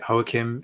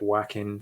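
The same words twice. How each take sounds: First: The name is pronounced the Spanish way. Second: The name is pronounced an anglicized way. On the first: This is the way the speaker chooses to say it. "I'm going with the Spanish pronunciation" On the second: Some other people say it this way. "I know some people um, pronounce it"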